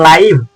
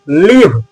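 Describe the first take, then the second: First: The vowel is long, as in 'eye'. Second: The vowel is short, as in 'it'. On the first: It means watching something as it happens. "ऐसे ही लाइव भी पढ़ा जाता है" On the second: It means to reside somewhere. "लिव का मतलब क्या होता है, रहना"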